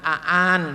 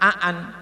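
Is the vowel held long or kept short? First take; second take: long; short. First: The vowel is drawn out long. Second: The vowel is kept short. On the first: The speaker calls it wrong. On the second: The speaker calls it right. "harus pendek"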